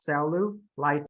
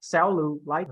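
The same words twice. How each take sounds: First: "Cellulite" slow, first two syllables level, LITE stressed; flat, then up. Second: "cellulite" slow, bobbing up, down, up by syllable; wrong up-down tune. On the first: Teacher showing how first two syllables go, flat then up on "Cellulite". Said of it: "I'm flat here". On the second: Teacher showing what not to do, up-down tune on "cellulite". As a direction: seesaw the pitch through "cellulite". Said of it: "it's up, down". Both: Shown as a demonstration.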